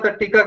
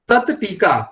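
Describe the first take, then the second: First: Said fast, the first word ends in retroflex t. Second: Said slowly, the first word ends in dental t. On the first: "अगर आप इसको बड़ा fast बोलेंगे" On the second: "आराम से बोलेंगे तो अलग अलग उच्चारण होगा"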